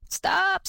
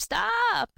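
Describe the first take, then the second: First: High sharp call of stop; first cry of Stop, pitched high. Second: Shouted stop!, high and falling; shouting. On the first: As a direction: call Stop to halt him. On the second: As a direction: yell stop! after the running son. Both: A narrator's reading. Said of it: "cried his mother".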